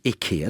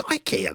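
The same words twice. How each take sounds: First: Ikea said as ih-KEE-a; short "ih" opening on ikea; advert pronunciation. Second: Ikea said as eye-KEE-a; long "eye" opening on ikea; English pronunciation. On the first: Retold or imitated. Presenter quoting the TV adverts, ih-KEE-a for ikea. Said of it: "the adverts these days call it". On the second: Shown as a demonstration. Presenter disputing the adverts, eye-KEE-a for ikea. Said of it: "it's ikea, though".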